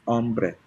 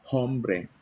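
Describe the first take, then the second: First: The word starts with a silent h. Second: The word starts with an audible h sound. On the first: The speaker calls it right. "you don't pronounce H" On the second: The speaker calls it wrong. "hindi siya hombre"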